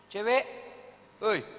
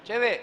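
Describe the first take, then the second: First: Catcall. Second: Louder mock catcall to a girl. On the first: Acted. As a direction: call out teasingly to a passing girl. Catcalling a girl. (siulan menggoda cewek, lebih keras) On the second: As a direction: call out cheekily to a passing girl. (panggilan menggoda yang lebih keras)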